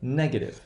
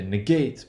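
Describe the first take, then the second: First: Negative as NEG-uh-tive; stress on NEG in negative. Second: Negate as nuh-GATE; stress on GATE in negate. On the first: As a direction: shift the accent in negative to the first syllable. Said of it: "so one O O". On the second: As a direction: say negate with the second syllable stressed. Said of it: "We have the O one stress pattern". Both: Shown as a demonstration.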